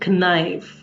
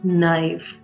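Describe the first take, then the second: First: A K sound is heard at the start. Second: No K sound is heard at the start. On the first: The speaker calls it wrong. "You can't say knife" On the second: The speaker calls it right. "The right word is knife"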